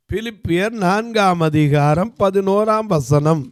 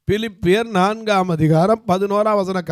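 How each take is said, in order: First: Slow, deliberate reading of பிலிப்பியர் நான்காம் அதிகாரம் பதினோராம் வசனம் with weight on பதினோராம்; slow announced verse reference. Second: Said in the usual way. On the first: Shown as a demonstration. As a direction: spell out பதினோராம் வசனம் slowly for the congregation. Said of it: "announcing the verse reference slowly". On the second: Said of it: "repeating the reference".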